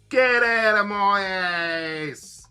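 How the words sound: It is said in a Cockney London accent.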